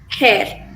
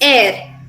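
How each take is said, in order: First: The word starts with an h sound. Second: The word starts without an h sound. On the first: The speaker calls it wrong. "instead of" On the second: The speaker calls it right. "The H sound here is silent"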